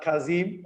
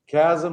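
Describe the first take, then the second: First: The second syllable does not sound like sarcasm. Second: The second syllable sounds like the end of sarcasm. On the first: The speaker calls it wrong. "It's not Kazim as you would normally read the Turkish letters" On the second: The speaker calls it right. "like in sarcasm"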